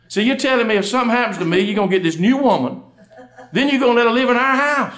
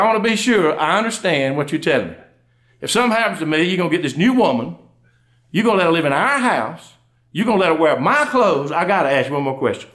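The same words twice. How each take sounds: First: High-pitched, wounded wife's questioning; hammed-up upset. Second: Measured, emphatic wife's interrogation; mock mad. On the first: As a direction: plaintively go over each hurt, pitched up. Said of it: "She went from sad to mad". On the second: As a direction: lay out each grievance with controlled, acted anger. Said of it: "She went from sad to mad by then".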